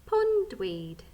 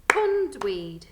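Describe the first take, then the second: First: Said in the usual way. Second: Pondweed in two loud beats, higher on POND; split into syllables. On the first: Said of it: "let's sound out the last word". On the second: Shown as a demonstration. Teacher counts syllables in Pondweed, beating POND-WEED loudly. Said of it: "How many syllables?".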